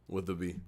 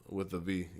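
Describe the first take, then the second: No difference in how they are said.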